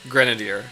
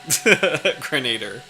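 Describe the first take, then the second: First: The word ends with an extra '-ier' sound. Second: The word sounds like 'grenade' plus '-er'. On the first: The speaker calls it right. "That actually that actually makes more sense" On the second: The speaker calls it wrong. "like grenade"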